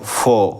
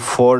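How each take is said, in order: First: The final r sound is silent. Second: The final r sound is pronounced. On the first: The speaker calls it right. "বলবো" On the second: The speaker calls it wrong. "না বলে"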